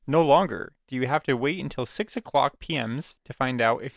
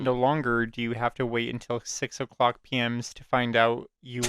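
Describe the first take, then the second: First: It is read in a more interested way. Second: It is read in a flat, uninterested way.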